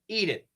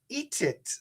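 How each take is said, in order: First: The T is a quick flap like D. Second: The T is released and joined onward. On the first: "usually it's going to be a flap T" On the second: "It could be a true T linked"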